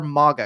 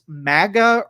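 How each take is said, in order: First: The first vowel is a long A. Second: The first vowel is a short A. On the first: "long A" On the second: "short A"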